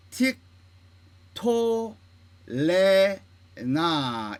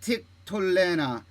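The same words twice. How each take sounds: First: 틱, 토, 레, 나 with a clear pause after each syllable; syllable-by-syllable demo. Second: 틱톨레나 in two groups, 틱 then 톨레나 run together; short 틱, then glide through 톨레나; joined-up model reading. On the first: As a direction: separate every syllable and hold the vowels. (틱, 토, 레, 나 음절마다 뚝뚝 끊어서) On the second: (틱, 톨레나 음절을 이어서 또박또박) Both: Shown as a demonstration. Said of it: "이렇게 읽어야 됩니다".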